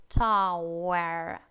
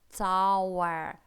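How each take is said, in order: Both takes have the same delivery.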